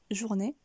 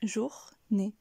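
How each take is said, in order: First: Said in the usual way. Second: JOUR, pause, NÉ, each on its own; journée cut into jour and né; split syllables. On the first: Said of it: "ce qui donne". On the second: Shown as a demonstration. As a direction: say jour ... né with a clear gap. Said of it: "couper le mot en deux".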